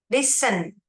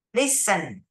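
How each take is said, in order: First: Listen with no added ending. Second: Listen again with nothing added after the n; Listen, clean ending; no ED repeated. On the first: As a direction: say Listen plainly, nothing after the n. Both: Shown as a demonstration. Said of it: "Bukan listened, tapi listen".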